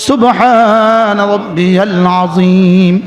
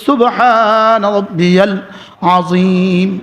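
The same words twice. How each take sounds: The two takes are said the same way.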